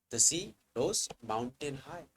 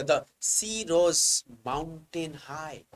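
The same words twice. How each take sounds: First: Said in the usual way. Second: Slow, weighty reading with rose stretched out; emphatic reading. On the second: Shown as a demonstration. Teacher reading a hyperbole example emphatically to students, slow and stressed. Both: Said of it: "Just emphasize on it".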